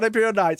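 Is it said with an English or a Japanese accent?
English. It is said in a plain English accent.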